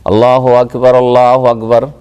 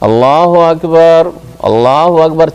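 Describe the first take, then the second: First: Both phrases run together without a pause. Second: Each phrase is followed by its own pause. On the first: Two phrases are said together before stopping. "একসাথে দুটো দুটো করে বলছে" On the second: Each phrase is said separately with a stop. "থেমে থেমে"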